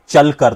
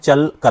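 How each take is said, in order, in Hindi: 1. शब्द एक ही टुकड़े में, बिना टूटे बोला जाता है। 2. शब्द दो अलग हिस्सों में बंटा होता है।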